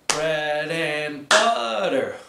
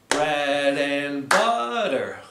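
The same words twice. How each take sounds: Both takes have the same delivery.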